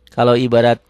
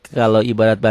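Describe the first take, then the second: The two takes are said the same way.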